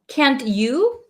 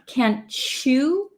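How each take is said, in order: First: The t and the y stay separate sounds. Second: The t and y merge into a ch sound.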